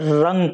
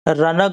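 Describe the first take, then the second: First: The n merges as a nasal into the g. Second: The n is a full separate consonant syllable. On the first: The speaker calls it right. "बल्कि रंग पढ़ेंगे" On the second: The speaker calls it wrong. "रनक नहीं पढ़ेंगे"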